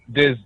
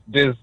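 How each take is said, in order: Both takes have the same delivery.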